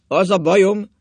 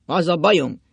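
First: Very loud, higher, decisive declaration; firm, resolute voice. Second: Loud, insistent opening; forceful start. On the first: Drunk husband restarting his confession, loud and determined. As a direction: hammer it out with full determination. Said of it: "mondta mély, határozott hangon". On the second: Drunk husband starting his confession, loud and insistent. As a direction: announce it forcefully, then hold back. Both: A narrator's reading.

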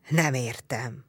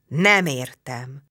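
First: Low, soft grumbling growl. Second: Slow, drawn-out vexed complaint; annoyed chieftain, very slowly. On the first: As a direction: growl it under the breath. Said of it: "mordult meg Csát". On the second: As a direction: stretch it out in irritation. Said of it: "bosszankodott Csát". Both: A narrator's reading.

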